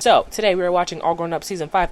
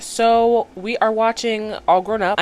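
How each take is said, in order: First: Said in the usual way. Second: Slow, drawn-out intro line; slow announcement. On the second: Real, not acted. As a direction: spell out the title slowly. Announces the episode, slowly.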